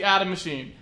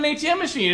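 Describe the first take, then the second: First: The acronym is read as a single word. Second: The acronym is said as separate letters. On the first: The speaker calls it right. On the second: The speaker calls it wrong.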